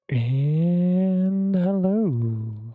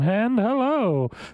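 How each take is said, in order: First: The greeting is said flatly, without energy. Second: The greeting is said with enthusiasm and energy.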